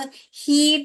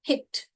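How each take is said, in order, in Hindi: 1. स्वर लंबी ई की आवाज़ है। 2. स्वर बहुत छोटी इ की आवाज़ है। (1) "ये वाला पढ़ोगे तो हीट आ जाएगा, जो कि गलत है" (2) "हमको सिर्फ वो छोटी ई जो है पढ़ना है, उससे भी आधा"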